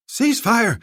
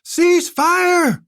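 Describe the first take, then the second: First: Higher, louder "Cease fire!"; first call to stop; shouted order. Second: Much higher, louder "Cease fire!"; deafened bellow. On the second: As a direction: bellow it over ringing ears. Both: Acted. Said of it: "Zolkadar shouted".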